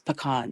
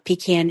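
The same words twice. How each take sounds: First: It is said the Southern US way. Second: It is said the Northern US way.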